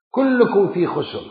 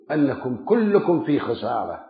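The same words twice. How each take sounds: First: كلكم punched, the phrase raised and firm; stress on كلكم. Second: Said in the usual way. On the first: Shown as a demonstration. Preacher insists to the congregation that كلكم means all. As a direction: hammer the word كلكم home. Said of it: "repeated with force". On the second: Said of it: "كلكم في خسر، repeated".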